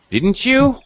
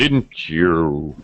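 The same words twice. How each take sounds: First: The pitch ends high. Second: The pitch ends low. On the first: The speaker is really asking a question. "ending with a high pitch" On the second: The speaker already knows and wants confirmation. "Low pitch at the end"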